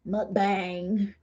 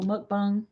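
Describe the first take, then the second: First: Slow, drawn-out American accent; broad American accent, tipping into laughter. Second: Said in the usual way. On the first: Shown as a demonstration. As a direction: say Mukbang in an exaggerated American accent. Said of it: "in the American accent". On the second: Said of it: "Is that how you say it?".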